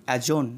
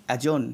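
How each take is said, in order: No difference in how they are said.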